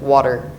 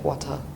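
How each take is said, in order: First: It has a hard T and R sound. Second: It has no R sound at the end. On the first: "In American English, once again, the T and the R, like water" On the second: "British like wa or like wata"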